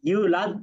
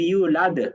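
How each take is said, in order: First: The final d ends flat without a bounce. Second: The final d ends with a bouncing echo. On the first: The speaker calls it wrong. "এইখানে কিন্তু ইউলাদ পড়েছেন" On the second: The speaker calls it right. "ইউলাদ এরকম হবে, কল করা হবে"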